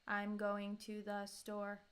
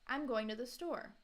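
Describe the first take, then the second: First: It is said flat with no emphasis. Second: It is said with natural, lively intonation. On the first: The speaker calls it wrong. "trying to do as flat as possible" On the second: The speaker calls it right. "let me say it kind of naturally"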